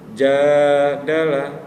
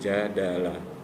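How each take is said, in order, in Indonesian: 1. Vokal pertama dipanjangkan dengan ayunan naik. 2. Vokal pertama pendek, satu ketukan. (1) "kita akan baca" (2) "padahal tulisannya"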